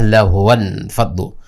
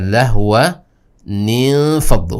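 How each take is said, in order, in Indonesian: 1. Kedua kata tersambung tanpa tambahan 'nin'. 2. Suku kata 'nin' penyambung menghubungkan kedua kata. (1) "tidak kita bisa baca" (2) "Akan tapi kita baca"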